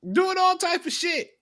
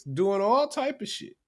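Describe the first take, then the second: First: "Doing all type of shit" repeated much higher for emphasis; emphatic repeat. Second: Said in the usual way. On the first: Shown as a demonstration. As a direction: hit it again up high, exasperated.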